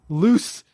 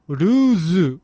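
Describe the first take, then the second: First: The word ends with a hissing s sound. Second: The word ends with a buzzing z sound. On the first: "the English is loose socks ... there's no z" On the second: "the Japanese pronunciation is ruzu with a z"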